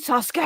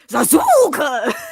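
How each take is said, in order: First: The middle u vowel is dropped. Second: The middle u vowel is clearly pronounced. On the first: This is how the English version says the name. The speaker calls it right. "the English version" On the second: This is how the German dub says the name. The speaker calls it wrong. "They emphasize the U that is supposed to be kind of silent"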